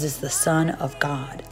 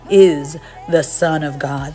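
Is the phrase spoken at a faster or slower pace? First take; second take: faster; slower. First: The phrase is spoken at a normal pace. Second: The phrase is spoken at a slower pace.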